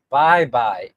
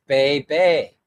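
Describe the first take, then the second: First: "Bye Bye" with both words rhyming with eye; local pronunciation. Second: "Bay Bay" as written, both rhyming with day; spelling pronunciation. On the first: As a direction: slowly say "Bye Bye" with an eye vowel. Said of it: "It's pronounced Bye Bye". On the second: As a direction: say "Bay Bay" with long ay vowels. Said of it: "I called it Bay Bay". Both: Shown as a demonstration.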